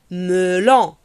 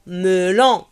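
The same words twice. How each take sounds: The two takes are said the same way.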